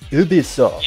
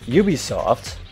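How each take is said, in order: First: The name is said with a French-sounding pronunciation. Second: The name is said with an English-sounding pronunciation. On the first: "I tend to go with Ubisoft. Because it sounds more French" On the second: "I'll do the other way just to be different"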